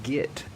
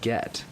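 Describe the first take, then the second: First: The word has a Southern US pronunciation. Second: The word has a Northern US pronunciation. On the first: The speaker calls it wrong. "he would constantly say "get" ... "get" is a southern thing" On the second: The speaker calls it right. "instead of"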